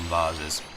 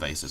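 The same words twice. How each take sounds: First: It is said with a British pronunciation. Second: It is said with an American pronunciation. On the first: This is how the speaker normally says it. "I call them vases" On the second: This is not how the speaker normally says it. "I don't call them vases"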